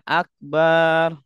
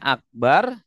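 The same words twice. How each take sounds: First: The 'ba' vowel is drawn out long. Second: The 'ba' vowel is short. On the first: A drum. The speaker calls it wrong. "bacanya akbar; Banyak panjang" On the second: The Most Great. The speaker calls it right. "Harusnya akbar; banyak pendek"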